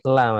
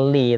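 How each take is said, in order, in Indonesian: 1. Partikel itu vokalnya 'a'. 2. Partikel itu vokalnya 'i'. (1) "tapi la" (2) "Dia bukan li"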